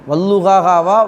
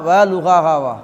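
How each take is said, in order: First: An 'al' sound comes before the word. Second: No 'al' sound comes before the word. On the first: The speaker calls it wrong. "எத்தனை பேர் வல்லுஹாகான்னு ஓதிருக்கிறோம்" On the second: The speaker calls it right. "அலிஃப்லாம் இருக்கா இல்லையா? இல்லை"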